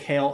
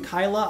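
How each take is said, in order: First: The name is said as one syllable, 'kale'. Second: The name is said as two syllables, 'ky-la'. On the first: The speaker calls it right. "But I say kale" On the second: The speaker calls it wrong. "Some people pronounce them Kyla"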